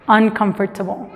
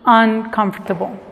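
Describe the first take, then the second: First: Every letter, including the o, is clearly pronounced. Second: The o after comf is almost silent. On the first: "tienden a pronunciar más cada letra" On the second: "en Estados Unidos generalmente van a escuchar"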